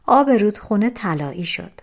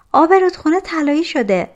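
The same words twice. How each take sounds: First: Said in the usual way. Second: High, loud, quick call; excited announcement. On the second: A narrator's reading. Girl runs into the hut with news of the river, excited. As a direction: burst in with the news, pitched high. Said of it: "به داخل کلبه دوید و گفت".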